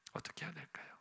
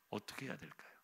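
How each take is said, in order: First: Faint breathy whisper. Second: Hushed unvoiced whisper. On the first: Acted. Preacher repeating the question, fainter whisper. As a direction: barely voice it, almost nothing. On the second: Preacher whispering to the congregation, hushed. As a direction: lean in and whisper the question.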